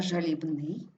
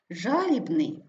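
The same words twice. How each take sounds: First: ЖалібНИЙ, ending stressed, slow; stress on last syllable. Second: ЖАлібний, first syllable stressed, slow. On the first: Teacher showing double stress, stress on НИЙ. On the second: Teacher showing double stress, stress on ЖА. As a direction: hit ЖА in жалібний. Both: Shown as a demonstration. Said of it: "слова із подвійним наголосом".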